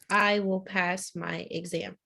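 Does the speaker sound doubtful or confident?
confident. It is said with strong conviction.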